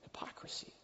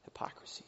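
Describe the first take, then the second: First: Breathy whispered word. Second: Soft unvoiced repeat; whisper. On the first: Preacher naming the sin in a whisper. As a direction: hush the word like a confession. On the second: Preacher echoing the sin in a hush. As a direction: whisper it once more, fading. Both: Real, not acted.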